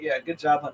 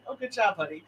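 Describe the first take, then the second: First: It is said in a mocking, sarcastic tone. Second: It is said in a sincere, encouraging tone.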